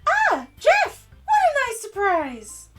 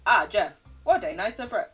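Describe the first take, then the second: First: It is said in a high-pitched voice. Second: It is said in a robotic voice.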